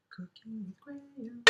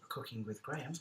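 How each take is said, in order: First: High breathy whisper. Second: Said in the usual way. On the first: Shown as a demonstration. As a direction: whisper the name like a secret. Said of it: "whispered echo of the playlist name".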